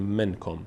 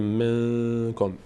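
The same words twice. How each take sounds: First: The n is a clear, full consonant. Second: The n is hidden and voiced through the nose. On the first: The speaker calls it wrong. "نمیگیم منکم" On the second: The speaker calls it right. "اینجا نون از بینی ادا میشه، میگیم منکم"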